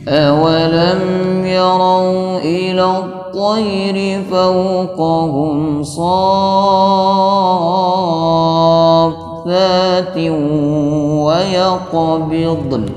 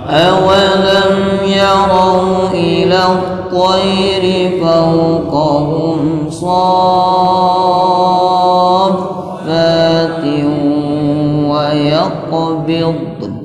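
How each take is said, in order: No difference in how they are said.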